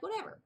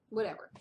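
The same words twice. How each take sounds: First: "Whatever." pitched much higher with a rising shrug; mock dismissive. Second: Said in the usual way. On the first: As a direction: toss off "Whatever." high and breezy, brushing it away. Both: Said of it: "So I'm like".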